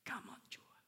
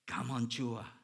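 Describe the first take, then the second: First: The phrase is whispered and croaky. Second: The phrase is said in a full, confident voice. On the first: The speaker can barely get the words out. "he whispered, almost croaked out" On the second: The speaker has gained confidence in speaking. "he said it with more confidence"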